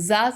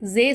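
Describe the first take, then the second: First: The letter name ends with an 'ah' vowel. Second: The letter name ends with an 'eh' vowel. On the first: The speaker calls it right. "ஸா சொல்லணும்" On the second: The speaker calls it wrong. "ஸே சொல்லக்கூடாது"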